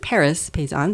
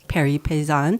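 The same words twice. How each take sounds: First: It is said with an American accent. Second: It is said with a French accent.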